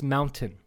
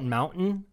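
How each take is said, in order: First: The middle t is clearly pronounced. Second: The middle t is swallowed or dropped. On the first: This is how the word should be said. The speaker calls it right. "It's mountain" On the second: This is the speaker's habitual way of saying it. The speaker calls it wrong. "I call it mountain and I hate that"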